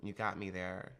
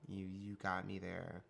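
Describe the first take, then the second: First: Said in the usual way. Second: Comedic stutter. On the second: Shown as a demonstration. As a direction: stammer on you, you. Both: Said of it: "I sometimes stutter for comedic effect".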